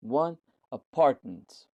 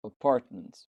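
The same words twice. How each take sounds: First: Apartment drawn out very slowly, loud, weight on PART; slow teaching demo, lean hard on PART in apartment; stress on PART. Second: Apartment repeated at normal pace, louder, stress on PART. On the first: Teacher slowly modelling apartment for students, PART stressed. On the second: Teacher repeating Apartment for students, stress on PART. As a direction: say Apartment once more, hit PART. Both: Shown as a demonstration. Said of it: "پارت هستش".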